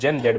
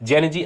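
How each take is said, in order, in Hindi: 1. अंतिम अक्षर 'zed' कहा जाता है। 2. अंतिम अक्षर 'zee' कहा जाता है। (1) "ब्रिटिश पर्सपेक्टिव में" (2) "अमेरिकन पर्सपेक्टिव में है"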